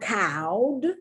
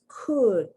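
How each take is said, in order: First: The vowel sounds like the one in cow. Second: The vowel is a short u sound. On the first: The speaker calls it wrong. "It's not cowed" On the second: The speaker calls it right. "It's could, ud, the short U sound"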